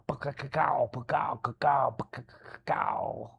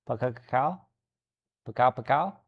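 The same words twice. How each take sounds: First: Mouthed thunderclap, fading to a breathy crackle; thunder noise. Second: Tentative thunder noise. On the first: Retold or imitated. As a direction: make the sound of thunder cracking outside. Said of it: "it's gonna be all like". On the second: Shown as a demonstration.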